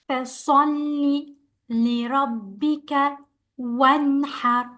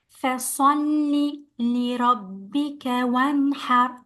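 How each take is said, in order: Both takes have the same delivery.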